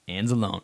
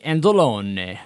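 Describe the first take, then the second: First: The name is pronounced in a plain English style. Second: The name is pronounced in an Italian style. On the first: The speaker calls it right. "I'm pretty sure it's pronounced just Anzalone" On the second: The speaker calls it wrong. "I always want to say Anzalone because he's an Italian looking guy with an Italian looking"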